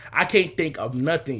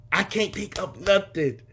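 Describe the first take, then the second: First: Said in the usual way. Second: Slow, higher, exaggerated helpless voice; hammed-up, drawn-out despair; mock panic. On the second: Son blanking on a memory of dad, mock panic.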